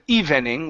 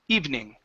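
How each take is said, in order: First: The word is said with three syllables. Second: The word is said with two syllables. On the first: The speaker calls it wrong. "evening with three three syllables" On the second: The speaker calls it right. "I say evening with two syllables"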